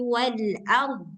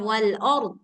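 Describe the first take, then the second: First: The opening vowel of 'ard' sounds thin, like 'a'. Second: The opening vowel of 'ard' sounds thick, like 'o'. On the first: The speaker calls it right. "harus tetap tipis" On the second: The speaker calls it wrong.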